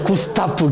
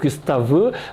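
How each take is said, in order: First: The name ends in a p-like f sound. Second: The name ends in a v-like b sound.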